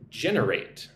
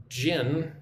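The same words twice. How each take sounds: First: "Generate" as one word, weight on its first syllable; stress on first syllable. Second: "Gen-er-ate" in three parts with long pauses; syllable by syllable. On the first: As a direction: hit the start of "Generate" and let it fall. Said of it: "Put the emphasis on the first syllable". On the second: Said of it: "let's look at the word generate". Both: Shown as a demonstration.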